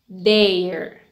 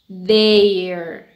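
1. Se dice como una sola sílaba contraída. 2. Se dice como una sola sílaba contraída.

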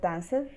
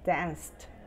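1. El final es una sílaba extra, como 'id'. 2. El final es un sonido t simple. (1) "Es incorrecto decir danced" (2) "es danced"

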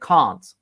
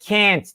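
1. İngiliz telaffuzuyla söylenir. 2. Amerikan telaffuzuyla söylenir. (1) "İngiliz İngilizcesine can't" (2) "Amerikan İngilizcesine can't diye telaffuz ediliyor"

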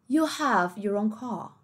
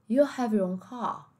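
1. É dito com sotaque britânico. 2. É dito com sotaque britânico.

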